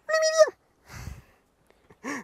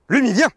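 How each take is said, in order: First: It is said in a small high voice. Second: It is shouted loudly.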